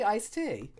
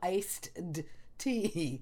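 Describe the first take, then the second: First: The d sound before tea is dropped. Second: The d sound before tea is clearly pronounced. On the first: The speaker calls it right. "No, you say iced tea" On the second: The speaker calls it wrong. "You can't go iced tea. Can you?"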